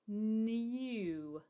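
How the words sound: A y sound comes before the oo vowel. "in English, we sort of tend to say new ... it has got that Y sound in it"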